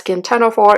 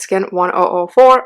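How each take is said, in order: First: The number is read as ten oh four. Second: The number is read as one oh four. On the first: The speaker calls it wrong. "not Skin ten oh four" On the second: The speaker calls it right. "it's Skin one oh four"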